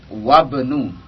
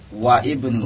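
First: The i vowel is dropped, joining wa to bnu. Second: The i vowel is sounded between wa and bnu. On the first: The speaker calls it right. "lihat wabnu bukan waibnu" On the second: The speaker calls it wrong. "bukan waibnu"

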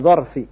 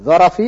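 First: The r is followed by an a vowel. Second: The r carries no vowel after it. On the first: "bi fathir ra'" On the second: "bi taskin ra'"

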